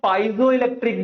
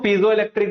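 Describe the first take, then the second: First: The first syllable sounds like 'pie'. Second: The first syllable sounds like 'pee'. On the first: "मेरे हिसाब से जो correct pronunciation बच्चे वो पाइजो इलेक्ट्रिक है" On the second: "कुछ लोग इसको पीजो इलेक्ट्रिक बोलते हैं"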